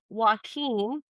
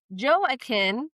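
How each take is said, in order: First: The name is said with a Spanish pronunciation. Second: The name is said with an American pronunciation. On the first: "that's the Spanish pronunciation" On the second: "which is like the Americanized version"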